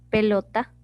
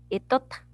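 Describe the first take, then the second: First: The word begins with a 'p' sound. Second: The word begins with a vowel sound. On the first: The speaker calls it right. "en vez de decir pelota" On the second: The speaker calls it wrong. "está omitiendo la P"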